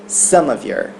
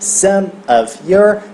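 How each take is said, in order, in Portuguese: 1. As três palavras são ditas juntas, como uma só. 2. As três palavras são ditas separadamente.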